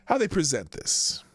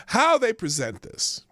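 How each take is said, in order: First: Said in the usual way. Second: HOW they present this, slower and higher; emphatic restatement. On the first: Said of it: "That's the word". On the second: Real, not acted. Host restating the word he searched for, emphatic stress on How. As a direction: restate it firmly, leaning on How. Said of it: "The present".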